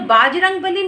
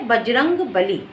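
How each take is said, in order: First: The first vowel is long. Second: The first vowel is short. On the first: The speaker calls it wrong. "बाजरंग बली नहीं होता है" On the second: The speaker calls it right. "सही शब्द होता है बजरंग बली"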